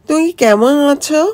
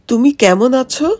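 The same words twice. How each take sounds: First: The m sounds are replaced by sounds made with the tongue. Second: The m sounds are pronounced normally with closed lips. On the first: "করে বলা যায় তাহলে আর ঠোঁট নাড়াবার দরকারই হয় না" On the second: "তুমি কেমন আছো কথাটা"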